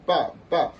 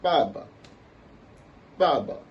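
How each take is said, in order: First: Ba ba as two equal high falls; both ba syllables in falling tone; fourth tone on both. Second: Ba ba with only the first strong; ba ba, falling tone then neutral; neutral second syllable. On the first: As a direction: hit each "ba" high and loud, dropping sharply. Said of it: "celui-là, ça va donner". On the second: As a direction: hit the first "ba" high and falling, let the second go light. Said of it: "ça va se dire comment". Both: Shown as a demonstration.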